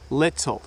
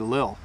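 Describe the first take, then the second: First: The middle sound is a clear T. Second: The middle sound is dropped entirely. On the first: It suits public speaking or reading a poem. "We don't often say little" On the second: It is a very fast, informal way. "we even say it faster. Sometimes we say lil"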